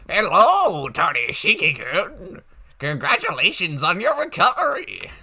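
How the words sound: It is read in an old man's voice.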